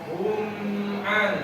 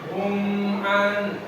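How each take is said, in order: Both takes have the same delivery.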